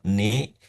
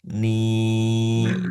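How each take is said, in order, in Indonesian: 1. Vokalnya pendek. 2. Vokalnya panjang. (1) "Ni merupakan kependekan dari ni" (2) "Kalau ni panjang artinya apa?"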